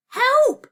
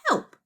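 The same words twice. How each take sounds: First: High, very loud scream of HELP; screamed plea. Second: Said in the usual way. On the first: A narrator's reading. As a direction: scream HELP at full urgency. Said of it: "she screamed". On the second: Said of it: "the parchment started to scribble".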